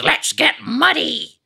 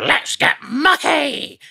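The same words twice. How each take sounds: First: Very high, slow cartoon voice saying muddy; same cartoon squeak, muddy in place of mucky; American version of the catchphrase, high and slow; Muck, American version. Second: Very high, slow cartoon voice; British version of the catchphrase, high and slow; Muck's catchphrase. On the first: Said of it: "But in America, it was". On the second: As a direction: stretch it out high and bright like a cartoon digger. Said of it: "Muck would always go".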